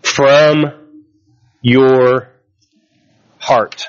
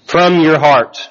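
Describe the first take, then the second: First: "from" "your" "heart" each set apart by long pauses; emphasized phrase. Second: Said in the usual way. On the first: Shown as a demonstration. Pastor stressing forgiveness to the church, word by word with pauses. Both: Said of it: "I highlight and emphasize".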